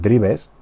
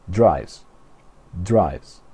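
First: Drives read as Spanish "DREE-bes"; pronunciación española. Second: Drives as one syllable, "dryvz"; pronunciación inglesa. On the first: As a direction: say drives as two syllables, with B. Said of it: "No decimos drives". (drives leído a la española, "dribes") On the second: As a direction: say drives slowly with long "eye" and V. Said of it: "decimos drives". (drives a la inglesa, "draivs", despacio) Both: Shown as a demonstration.

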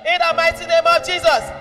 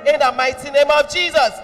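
The two takes are said the same way.

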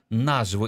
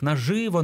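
First: Наживо stressed at the start, NA-zhy-vo; stress on first syllable. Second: Наживо stressed on the middle syllable, na-ZHY-vo; stress on second syllable. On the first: Teacher giving the newer recommendation, наживо with stress on НА. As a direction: lean on the НА in наживо. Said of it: "робити наголос на першому складі". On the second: Teacher citing older dictionaries, наживо with stress on ЖИ. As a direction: lean on the ЖИ in наживо. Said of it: "в одних словниках наживо наголос". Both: Shown as a demonstration.

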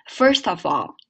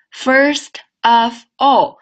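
First: "First of all" run together as one word; linked words. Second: "First", "of", "all" as three separate words, very slow and louder. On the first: Teacher demonstrating linking to students, words joined. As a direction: glide t into "of" and f into "all". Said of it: "连起来". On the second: Teacher breaking down a phrase, word by word. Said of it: "首先我们来看连读". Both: Shown as a demonstration.

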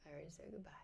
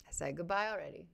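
First: Very soft whisper; whispered aside. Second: Said in the usual way. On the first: Real, not acted. Streamer lingering after her sign-off, whispered aside. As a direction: whisper it to yourself.

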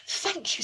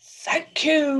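First: High, light unicorn voice; grateful unicorn. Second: Loud, raised lion voice; roaring lion. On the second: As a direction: roar out your thanks. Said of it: "roared the lion". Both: Acted.

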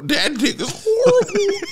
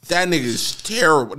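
First: High, slow, laughing through it; cracking up at his own line; giggled high and drawn out. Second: Said in the usual way. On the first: Real, not acted. Repeats joke while cracking up.

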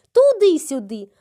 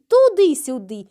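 The two takes are said the same way.

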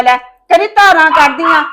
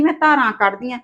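First: ਧਾਰਾਂ rising in a loud, angry retort; heated retort. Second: ਧਾਰਾਂ rising in a soft, sneering imitation; mock her words under your breath; mocking quote. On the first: Acted. Daughter-in-law throwing the milking jab back, loud. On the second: Daughter-in-law mocking mother-in-law's words quietly. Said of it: "ਕਹਿੰਦੀ".

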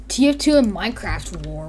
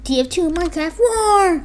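First: Said in the usual way. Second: High-pitched exaggerated title read; mock-dramatic high voice; hammed-up title call. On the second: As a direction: drag out the last word, up high.

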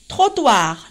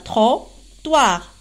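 First: Said in the usual way. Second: "Trottoir" in two separate syllables, trot - toir; syllable split. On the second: Shown as a demonstration. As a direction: break "Trottoir" with a pause in the middle. (« Trottoir » découpé en deux syllabes) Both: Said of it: "deux syllabes".

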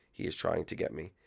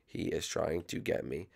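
No difference in how they are said.

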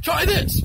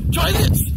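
First: Higher, insistent offer; rising anger. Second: Much higher, louder yelled offer; angry shout. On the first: Doctor forcing pills on him, heated insistence. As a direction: push the pill harder, getting heated. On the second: Furious doctor shoving pills, full shout. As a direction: yell it, losing your temper. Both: Acted. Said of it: "I get a little aggravated".

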